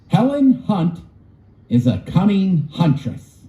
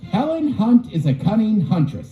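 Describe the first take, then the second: First: It is said at a normal reading speed. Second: It is said quickly, as fast as possible.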